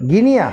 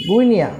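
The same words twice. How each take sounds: First: গিনিয়া with a plain গি, no উ; trial pronunciation. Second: গুইনিয়া said as spelt, with a clear গু; spelling pronunciation. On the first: Testing গিনিয়া aloud for the child. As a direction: tries গিনিয়া instead of the spelt form. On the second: Sounding out গুইনিয়া for the child. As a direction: reads গুইনিয়া letter by letter like the spelling. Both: Shown as a demonstration. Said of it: "গিনিয়া তো হচ্ছে না".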